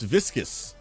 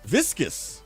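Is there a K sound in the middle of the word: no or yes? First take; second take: yes; yes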